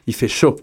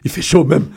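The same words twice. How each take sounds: First: Said in the usual way. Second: French in a West African accent. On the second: Shown as a demonstration. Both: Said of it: "Je vais même le dire avec mon accent ouest-africain".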